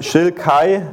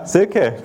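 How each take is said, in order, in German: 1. Es beginnt mit 'sh' und endet auf 'kai'. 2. Es beginnt mit 's' und endet auf 'ke'. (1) "das erste Mal, wo ich die ausgesprochen habe, Schilkai gesagt" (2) "Ja, Silke, genau"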